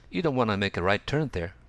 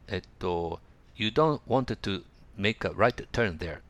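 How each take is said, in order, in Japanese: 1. 'Want to' は短く弱めて、次の語とつなげて発音します。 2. 'Want to' は完全な形で発音します。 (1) "だから言いやすいに発音してください。" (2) "とは言いづらいですね。"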